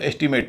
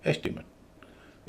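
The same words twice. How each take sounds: First: The stress is not on the first syllable. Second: The stress is on the first syllable. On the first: The speaker calls it wrong. "नहीं बोला जाएगा" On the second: The speaker calls it right. "पहले पर stress, दूसरे पर, तीसरे पर नहीं"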